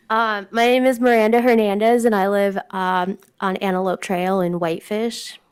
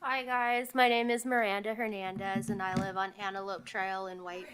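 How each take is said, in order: First: Said in the usual way. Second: Speaking far too softly, barely audible; almost inaudible, as if away from the mic; soft, mousy voice nobody can hear; too quiet. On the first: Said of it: "So I also have a mousy voice". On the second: Real, not acted.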